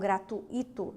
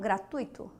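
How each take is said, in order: First: The 'u' and 'i' split, stress on 'i'. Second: The 'ui' is one syllable, stressed on 'tu'. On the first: The speaker calls it wrong. "e não gratuito... como sendo hiato" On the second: The speaker calls it right. "Paroxítonas"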